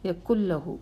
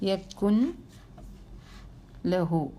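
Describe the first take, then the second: First: The n is dropped and merges into a doubled l. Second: The n is pronounced clearly before a single l. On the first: The speaker calls it right. "അതിനെ അവോയ്ഡ് ചെയ്യണം" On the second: The speaker calls it wrong. "നൂനെ ഒന്ന് വെളിവാക്കി നോക്കിയേ"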